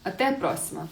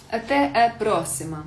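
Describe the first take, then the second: First: Said in the usual way. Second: «А те» голосніше і з натиском; «А те, е, просимо» старанно вимовлене вголос; повтор для учнів. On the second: Shown as a demonstration. (голосно повторює «а те просимо» для класу) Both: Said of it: "Віка, а те просимо".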